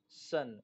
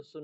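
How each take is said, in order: First: सन with an uh sound; uh vowel. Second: सुन with a short oo; wrong oo vowel. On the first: Teacher reading out "sun" for learners, सन with uh. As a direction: say सन with uh, not oo. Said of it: "आ पढ़ेंगे". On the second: Teacher warning against a misreading, सुन with short oo. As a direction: say सुन with oo instead of uh. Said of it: "इसको सुन नहीं पढ़ेंगे". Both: Shown as a demonstration.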